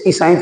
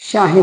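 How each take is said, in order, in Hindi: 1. s से पहले एक अतिरिक्त स्वर आता है। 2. शब्द सीधे s वाले समूह से शुरू होता है। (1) "इसे ईसाई थोड़ी बोलोगे" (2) "श्याही बोलेगा"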